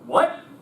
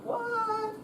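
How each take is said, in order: First: It is said loudly with strong energy. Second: It is said quietly with little energy. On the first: The speaker calls it right. "you should have been like" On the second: The speaker calls it wrong. "it was very quiet and difficult for you to hear you"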